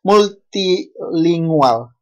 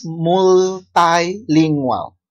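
First: Said in the usual way. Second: "multilingual" said as mul-TAI-lingual with an English "ai" in the second syllable; "multilingual" with "multi" sounded as "mul-tai"; other pronunciation. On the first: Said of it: "But somebody says multilingual". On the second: Shown as a demonstration. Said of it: "But somebody says".

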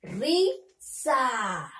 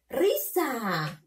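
First: RISA split into two drawn-out syllables, RI, pause, SA; teacher sounding out Risa in separate syllables. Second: Risa read as one connected word; teacher reading Risa whole, syllables run together; syllables joined. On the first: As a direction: sound out Risa slowly with a gap before "sa". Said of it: "ahora tenemos que leer". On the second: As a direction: blend "Risa" together with no gap, falling at the end. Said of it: "Tenemos que unirlo". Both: Shown as a demonstration.

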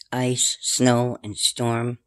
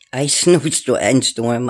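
First: Said in the usual way. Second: Tongue-tied giggle through it; giggling, tripping over the words; laughing stumble. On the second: Real, not acted. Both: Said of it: "I can't even talk right".

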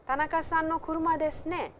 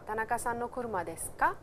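First: "kuruma desu ne" higher, falling away on "ne"; confirming ne. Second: "kuruma desu ka" lifting at the end on "ka"; direct question. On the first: Teacher shows confirming what one already knows, confirming ne. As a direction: seek agreement with a high-pitched "desu ne". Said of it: "So, I have a faint idea". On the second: Teacher shows asking with no knowledge of it, direct question. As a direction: ask plainly, rising on "ka". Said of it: "it would be a direct question". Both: Shown as a demonstration.

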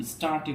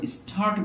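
First: "স্টার্টই" with no puff after the t; plain hard t inside "স্টার্টই"; unaspirated t. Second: "স্টার্ট" with a puff after the first t; th-like aspirated t inside "স্টার্ট"; wrongly aspirated t. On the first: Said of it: "স্টার্টই বলবো". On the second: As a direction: say "স্টার্ট" as "s-thart". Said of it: "এটা আমরা স্টার্ট বলবো না". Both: Shown as a demonstration.

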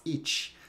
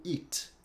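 First: "It" ending in CH, like "itch"; hissed Brazilian T. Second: "it" soft, with a plain stopped T; no hiss. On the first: Teacher imitates how Brazilians say it, "It" with hissy CH. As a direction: let the T of "It" hiss into CH. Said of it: "um chiado que nem a gente faz". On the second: Teacher corrects the learner, "it" without any hiss. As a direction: end "it" on a mute T, no CH. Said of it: "Não tem o chiado". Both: Shown as a demonstration.

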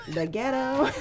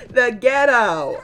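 First: Said in the usual way. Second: Ghetto stretched slow and loud; drawn-out mock outrage. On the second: Real, not acted. Vlogger scandalised by the park fight, slow loud mock outrage. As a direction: drag out "ghetto" in scandalised delight.

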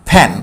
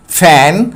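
First: "ফ্যান" said as "fan", with an open "ae" vowel; ya-phala vowel. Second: "ফ্যান" said as "fen", with an "eh" vowel; short "eh" in the middle of "ফ্যান". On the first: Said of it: "এর উচ্চারণ জ ফালার মতো". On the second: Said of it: "ইয়ের উচ্চারণ এর মতো হয়েছে". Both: Shown as a demonstration.

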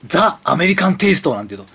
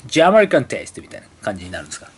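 First: ザ・アメリカン・テイスト with the article read as ザ. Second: ジ・アメリカン・テイスト with the article read as ジ. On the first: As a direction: say ザ, the Japanese-style reading. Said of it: "ここはザと読まないんですよ". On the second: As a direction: say ジ, the English-style reading. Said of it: "ジ・アメリカン・テイストでいいですか". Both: Shown as a demonstration.

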